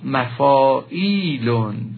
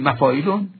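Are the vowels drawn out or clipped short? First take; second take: drawn out; clipped. First: The vowels are drawn out and lengthened. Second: The vowels are said short and clipped. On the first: The speaker calls it right. "باید مثبت تلفظ کنیم، یعنی بکشیم اندکی آنها را" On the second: The speaker calls it wrong. "نگوییم مفایلون"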